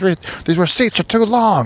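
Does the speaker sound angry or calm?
angry. The voice sounds angry and irritated. The speaker is upset about the receipts. "just getting angry over like nothing"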